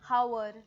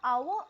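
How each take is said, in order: First: The word begins with an h sound. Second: The word begins with a vowel sound. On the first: The speaker calls it wrong. "आपण ऐकलं आहे people से" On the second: The speaker calls it right. "आवर असं आपण म्हणतो"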